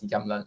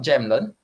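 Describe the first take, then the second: First: The word begins with a Y sound. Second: The word begins with a J sound. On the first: The speaker calls it right. "The J is pro pro pronounced as the Y sound, so it's Jamlen" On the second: The speaker calls it wrong. "it's not Jamlen, all right, because they don't have the J sound as well"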